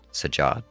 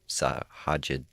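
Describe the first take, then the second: First: No H sound is heard in the name. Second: An H sound is heard in the name. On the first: The speaker calls it right. "So just forget the H" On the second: The speaker calls it wrong. "I'm adding an H, I think that's the issue"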